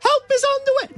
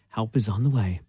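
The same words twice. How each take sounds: First: It is said with much more gusto. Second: It is said with little gusto.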